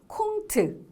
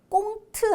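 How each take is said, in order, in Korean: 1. 이 단어는 거센소리로 시작해요. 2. 이 단어는 된소리로 시작해요. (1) "콩트 이거요" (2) "꽁트 아니고요"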